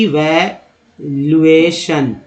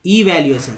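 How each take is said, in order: First: इवैल्यूएशन very slowly as ई-वै-ल्यू-ए-शन; syllable by syllable. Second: Said in the usual way. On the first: Shown as a demonstration. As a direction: stretch each syllable of इवैल्यूएशन. Same word split into syllables.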